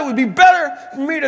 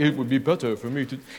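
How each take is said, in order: First: The voice is heated and angry. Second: The voice is calm, soft and pious. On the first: The speaker is furious and fed up. The speaker calls it right. "he's ticked off" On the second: The speaker is resigned and devout. The speaker calls it wrong. "He's not saying this in like stained glass voice"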